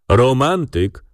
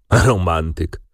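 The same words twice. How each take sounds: First: Amused; with a smile. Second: Said in the usual way. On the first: A narrator's reading. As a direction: smile through the word Romantyk. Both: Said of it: "powtarzał adwokat z uśmiechem".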